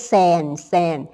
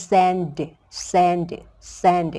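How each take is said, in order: First: "sand" said as "san", ending on n; teacher models "sand" as "san"; without final d. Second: "sand" with a separate released d at the end; teacher models "sand" with an audible final d; added final d. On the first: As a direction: say "sand" with no d at the end. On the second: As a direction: say "sand" and sound the closing d. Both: Shown as a demonstration. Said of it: "เพิ่มตัวดีมาก็เป็น".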